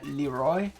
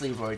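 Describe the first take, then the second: First: The name is said with a French pronunciation. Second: The name is said with a plain English pronunciation. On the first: The speaker calls it wrong. "pronouncing it all French like" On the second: The speaker calls it right. "screw that, it's Leroy, damn it"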